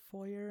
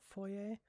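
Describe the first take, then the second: First: "foyer" said foy-er; "foyer" as Americans say it, foy-er; American pronunciation. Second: "foyer" said foy-ay; "foyer" with a final AY, not ER; French-style pronunciation. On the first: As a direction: end "foyer" on an ER sound. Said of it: "A lot of Americans say foyer". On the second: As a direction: end "foyer" on an AY sound. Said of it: "and not foyer". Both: Shown as a demonstration.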